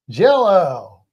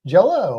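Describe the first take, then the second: First: [name]. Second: Said in the usual way. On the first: Acted. Host asking which pronunciation was meant, [name] impression. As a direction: stretch JELL-O out in a swooping impersonated voice. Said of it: "hard to do a [name] accent". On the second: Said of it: "saying Jell-O or".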